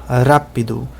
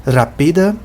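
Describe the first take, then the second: First: Rápido with stress on RA; rápido as RA-pi-do, first syllable stressed. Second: Rapida with stress on pi. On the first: Teacher contrasts Portuguese stress on RA. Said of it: "a sílaba acentuada é o ra". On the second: Teacher stressing pi in rapida. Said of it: "mas em Esperanto é o pi". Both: Shown as a demonstration.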